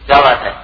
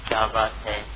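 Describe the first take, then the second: First: It is said in a hostile, confrontational tone. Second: It is said as an inquiring question. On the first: The speaker is picking a fight. "اب یہ پوچھنا نہیں ہے، اب لڑائی ہو رہی" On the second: The speaker is asking what the matter is. "اس کا مطلب ہے کہ میں سائل ہوں، پوچھ رہا ہوں"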